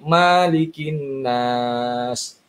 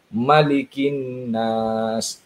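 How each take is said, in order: First: The first vowel of malikin is drawn out long. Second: The first vowel of malikin is kept short. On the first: The speaker calls it wrong. "ada juga yang baca malikin nas" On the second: The speaker calls it right. "kita pendekkan dengan membaca malikin nas"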